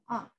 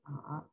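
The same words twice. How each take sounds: First: The syllable is said in the fourth tone. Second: The syllable is said in the third tone. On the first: "the final tone" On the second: "third tone"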